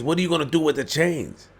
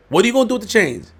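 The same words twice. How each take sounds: First: Said in the usual way. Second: Higher and faster, half-shouting "What are you gonna do with the chains?"; fast incredulous outburst; exasperated repeat. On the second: Real, not acted. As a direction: push the repeat up in disbelief.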